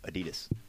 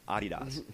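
First: It is said the way Americans say it. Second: It is said the way most countries say it. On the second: "The whole world"

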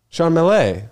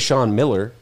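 First: The surname does not sound like 'Miller'. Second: The surname sounds like 'Miller'. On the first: This is the family's own pronunciation. The speaker calls it right. "How do you say it?" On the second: This is how strangers misread the name. The speaker calls it wrong. "But I wouldn't say Sean Miller"

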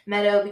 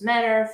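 First: It is said in a standard American accent. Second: It is said in an Appalachian accent. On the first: "Meadow becomes" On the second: "becomes medder"

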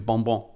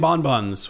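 First: It is said French-style, with a nasal vowel. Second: It is said English-style, with the final s sounded. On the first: "the French pronunciation" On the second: "which I'm going to put an S on"

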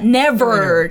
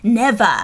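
First: The final r is pronounced with a curled tongue. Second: The final r is dropped, not pronounced. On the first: "アメリカだったらnever って R を丸めるけど" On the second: "イギリスだとnever 丸めない方です"

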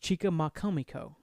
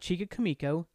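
First: The name is said with five syllables. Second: The name is said with four syllables. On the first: The speaker calls it right. "It's Chica Makamiko" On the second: The speaker calls it wrong. "It's not Chica Kamiko"

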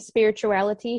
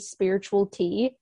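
First: An extra 'i' syllable comes before the final 'tea'. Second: The final 'tea' follows 'spiritual' with no extra syllable. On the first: The speaker calls it right. "thank you for saying spirituality" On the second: The speaker calls it wrong. "so many people call me spiritual tea, and it's like they're forgetting the second I"

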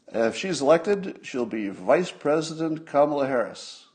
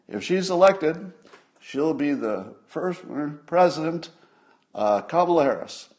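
First: The word vice is clearly pronounced and stressed. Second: Vice is mumbled and president is stressed.

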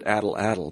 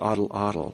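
First: The first vowel sounds like in 'cat'. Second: The first vowel sounds like in 'father'. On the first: The speaker calls it wrong. "I always pronounced it addle-addle" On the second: The speaker calls it right. "but it's oddle-oddle"

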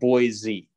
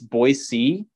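First: The middle consonant is a buzzing Z sound. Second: The middle consonant is a soft S sound. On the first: The speaker is not from there. The speaker calls it wrong. "not Boise. If you're saying it with a Z, you're not from here" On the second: The speaker is from there. The speaker calls it right. "It's Boise"

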